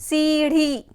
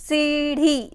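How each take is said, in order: Both takes have the same delivery.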